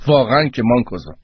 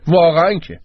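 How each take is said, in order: First: Said in the usual way. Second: Scolding repeat. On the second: A narrator's reading. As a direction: hammer the rebuke home on واقعاً with a fall. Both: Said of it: "گروپان داد زد".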